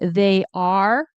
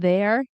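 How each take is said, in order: First: Both words are said fully. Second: The two words merge into one syllable. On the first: "unless you're saying they are" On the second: "which turns into there"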